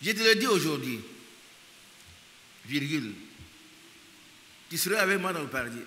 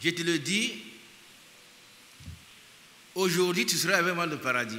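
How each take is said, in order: First: The pause comes after 'aujourd'hui'. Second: The pause comes before 'aujourd'hui'.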